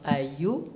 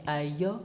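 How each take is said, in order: First: "Ayo" with a closed "oo" ending, Ah-yoo; mispronounced "Ayo", slow and rising; wrong vowel. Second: "Ayo" with an open "aw" ending, Ah-yaw; correct vowel. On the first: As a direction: draw out the mistaken "Ayo" as Ah-yoo. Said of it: "it's not Ayo". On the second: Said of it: "it's Ayo". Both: Shown as a demonstration.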